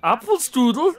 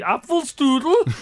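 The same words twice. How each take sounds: First: "Apfelstrudel" with German vowels and a rising tune; German pronunciation, rising. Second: "Apfelstrudel" said slowly, German style; German pronunciation. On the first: Showing friends how Austrians say it, rising German. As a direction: ask "Apfelstrudel?" the German way, lifting at the end. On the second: Mimicking how Austrians say it, slow and German. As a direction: drawl "Apfelstrudel" like an Austrian would. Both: Shown as a demonstration. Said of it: "That's the way they say it as well".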